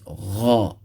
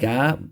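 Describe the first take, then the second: First: It starts with a soft throaty gh sound. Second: It starts with a hard g stop. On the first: The speaker calls it right. "but it's Gha" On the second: The speaker calls it wrong. "Not and it's not Ga"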